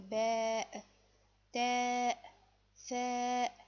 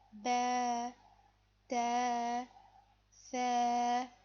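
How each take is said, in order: First: Each long vowel ends in a sharp glottal stop. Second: Each long vowel fades out without a glottal stop. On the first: The speaker calls it wrong. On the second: The speaker calls it right.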